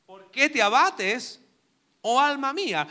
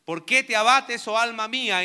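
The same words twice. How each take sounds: First: Slow reading. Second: Loud reading. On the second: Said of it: "el estribillo que aparece tres veces". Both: Shown as a demonstration.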